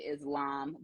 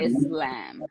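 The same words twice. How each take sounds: First: The middle consonant sounds like a z. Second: The middle consonant sounds like an s. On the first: This is the usual English way of saying it. The speaker calls it wrong. "a lot of times we say Islam because that is our English tone" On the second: This follows the original Arabic word. The speaker calls it right. "There is an S there. Really, it's a scene because it is an Arabic word"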